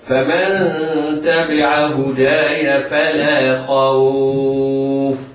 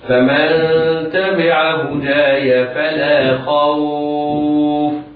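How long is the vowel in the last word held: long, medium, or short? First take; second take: long; medium. First: The vowel in the last word is held very long. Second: The vowel in the last word is moderately lengthened. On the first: "الطول أربع حركات ست حركات" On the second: "التوسط بمقدار أربع حركات"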